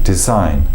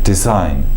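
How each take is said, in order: No difference in how they are said.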